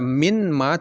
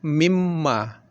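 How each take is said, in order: First: The n is pronounced separately before the m. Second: The n merges into a doubled m sound. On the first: The speaker calls it wrong. "tidak dibaca min ma" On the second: The speaker calls it right. "hilang huruf yang pertama dan masuk dia ke huruf yang kedua menjadi mimma"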